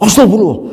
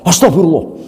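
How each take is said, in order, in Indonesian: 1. Diucapkan dengan nada marah, meluap-luap. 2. Diucapkan dengan nada marah, meluap-luap.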